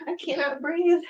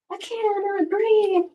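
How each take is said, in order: First: Breathless; squeezed, short of air; out of breath. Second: High slow strained voice; strained gasping. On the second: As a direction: gasp it out, squeezed. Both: Real, not acted.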